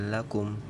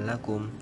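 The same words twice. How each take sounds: Both takes have the same delivery.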